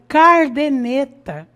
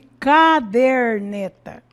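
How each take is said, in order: First: The r sound is in the first syllable. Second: The r sound is in the second syllable. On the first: The speaker calls it wrong. "nós vemos aí" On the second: The speaker calls it right. "Ao invés de"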